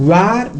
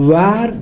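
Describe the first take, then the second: The two takes are said the same way.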